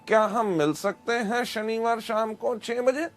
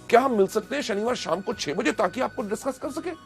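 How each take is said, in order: First: It is said flatly without excitement. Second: It is said with excitement and energy.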